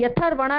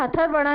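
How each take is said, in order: First: यथर्वणा with य sounded first, not ह; right reading. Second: हथर्वणा starting on ह, the mistake; wrong reading. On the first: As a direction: start यथर्वणा cleanly on य. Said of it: "य का उच्चारण पहले किया जाता है". (सही उच्चारण, य पहले) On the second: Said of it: "नहीं होगा". (गलत उच्चारण, ह से शुरू) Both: Shown as a demonstration.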